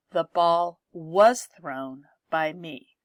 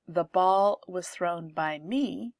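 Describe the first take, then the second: First: "was" punched, slow and louder; "was" stressed, sentence said slowly. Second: Said in the usual way. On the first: Shown as a demonstration. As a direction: lean on "was thrown" to show the tense. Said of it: "See how the verb tense changes?". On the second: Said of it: "The emphasis is on the ball".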